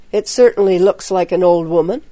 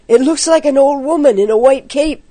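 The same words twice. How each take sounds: First: Said in the usual way. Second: High, fast, spooked report; frightened boy's hurried cry; alarmed cry. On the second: A narrator's reading. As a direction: blurt it out in rising alarm. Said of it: "he cried".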